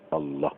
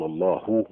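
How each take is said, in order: First: The final h ends with no vowel after it. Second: The final h is followed by a u vowel. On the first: The speaker calls it right. "الهاء عليها سكون" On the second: The speaker calls it wrong. "قال لك بالضمه ما يصح"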